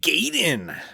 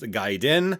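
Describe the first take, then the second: First: Gaiden is given an anglicized pronunciation. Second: Gaiden is given its Japanese pronunciation. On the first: This is how players used to say it. The speaker calls it wrong. "as we used to call it back in the day, because we didn't know any better" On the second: This is the proper way to say it. The speaker calls it right. "it is actually pronounced Gaiden"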